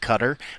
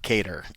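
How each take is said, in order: First: The first vowel is a short 'uh'. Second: The first vowel is a long 'ay'. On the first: The speaker calls it right. "I think they'll take cutter" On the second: The speaker calls it wrong. "it's not cater at all"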